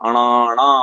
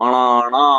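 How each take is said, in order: Both takes have the same delivery.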